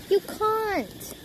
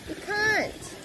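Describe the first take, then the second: The two takes are said the same way.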